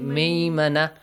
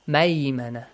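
First: The first syllable has an 'ee' vowel. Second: The first syllable has an 'ay' vowel. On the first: The speaker calls it wrong. "Don't say maymana. That becomes wrong" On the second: The speaker calls it right. "It does not have kasra. That's maymana"

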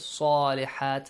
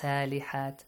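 First: The first S is heavy and emphatic. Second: The first S is light and plain. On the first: The speaker calls it right. "صَا, heavy letter" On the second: The speaker calls it wrong. "not سَالِحَات"

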